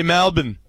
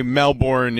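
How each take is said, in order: First: Melbourne said as MAL-bn, Australian style; "Melbourne" with the ending swallowed to "bn"; Australian pronunciation. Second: Melbourne said as MEL-born; "Melbourne" with a full "born" ending; American pronunciation. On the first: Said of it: "with an Australian accent. They, they, they say". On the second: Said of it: "we would say Melbourne in the United States". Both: Shown as a demonstration.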